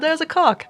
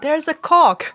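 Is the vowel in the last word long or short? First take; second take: short; long. First: The vowel in the last word is short. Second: The vowel in the last word is long. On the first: "I said like very very short" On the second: "right now I'm saying like a cock in like a long long term, like a long version"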